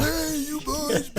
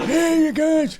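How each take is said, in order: First: Put-on high, soft and slow "Hey, you boys"; high soft greeting. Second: High goofy "Hey, you guys"; high mock greeting. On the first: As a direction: drawl it high and quiet. Repeats greeting softer, slow. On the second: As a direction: squeak it out playfully.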